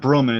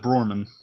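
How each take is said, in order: First: The name has no r after the first vowel. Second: The name has an r after the first vowel. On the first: The speaker calls it wrong. "it's not Broman" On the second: The speaker calls it right. "It's uh, Brorman. ... B R O R man"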